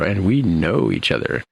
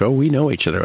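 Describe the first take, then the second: First: "know" drawn out, loaded with innuendo; suggestive stress on KNOW. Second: Said in the usual way. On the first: Retold or imitated. Two characters hint at a relationship, suggestive weight on "know". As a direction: stretch "know" to hint at intimacy. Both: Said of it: "knows people in that way".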